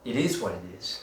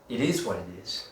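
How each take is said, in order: First: It is said in an upbeat, eager tone. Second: The same.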